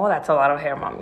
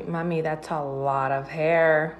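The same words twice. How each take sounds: First: Hammed-up flattered reply; mock impressed. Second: Slow, amused warning, half-laughing; lightly voiced giggling daughter. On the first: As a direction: act pleased as if it were a compliment. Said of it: "Entonces yo lo tomé como". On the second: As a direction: imitate a daughter teasing through a laugh. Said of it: "como riéndose".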